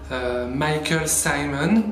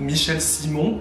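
First: The name is said with English pronunciation. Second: The name is said with French pronunciation.

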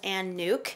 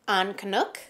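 First: The surname is one syllable, like nuke. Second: The surname is two syllables, like canuck. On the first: The speaker calls it wrong. "I always thought her name was Ann Nuke" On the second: The speaker calls it right. "she said her name is actually Ann Canuck"

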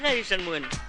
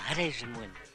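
First: The question is asked at a normal loudness. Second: The question is asked quietly, in a low voice.

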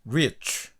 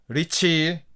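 First: The word ends with a faint 'oo'-like vowel. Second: The word ends with a clear added 'ee' vowel. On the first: The speaker calls it right. "약간 추 이렇게 끝난다는 그런 느낌으로 약간 우 모음이 강하게는 아니고 약하게 붙여준다" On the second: The speaker calls it wrong. "한국말식으로 리치, ... 이 발음을 넣어서 콩어리식으로 발음하지 마시고"

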